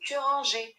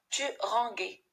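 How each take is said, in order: First: The g is soft, like the s in measure. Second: The g is hard, like the g in go. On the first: The speaker calls it right. "c'est tu rangeais" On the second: The speaker calls it wrong. "ça se prononce tu ranguais"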